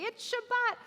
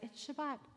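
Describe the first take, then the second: First: It is said in a lively, excited voice. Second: It is said in a calm, quiet voice. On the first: Some prayers greet the Sabbath with celebration. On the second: Some prayers greet the Sabbath peacefully.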